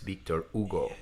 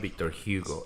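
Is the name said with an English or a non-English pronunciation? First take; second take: non-English; English. First: The name is pronounced a non-English way. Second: The name is pronounced the English way. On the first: The speaker calls it right. "It's the correct pronunciation" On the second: The speaker calls it wrong. "It's not Victor Hugo, I was doing the English pronunciation"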